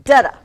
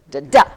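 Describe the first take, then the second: First: "Da-da" punched loud on the first, falling away on the second; STRONG-weak "Da-da"; stress on first syllable. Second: "da, da" with a short weak first and a loud second; weak-STRONG "da, da"; stress on second syllable. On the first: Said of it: "This one is". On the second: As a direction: punch the second "da" only. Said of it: "when you make a mark like this". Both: Shown as a demonstration.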